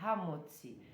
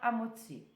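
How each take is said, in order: First: The first sound is a light breathy h. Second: The word begins directly with a vowel. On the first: "é Hamotzi" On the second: "como se fosse um H mudo"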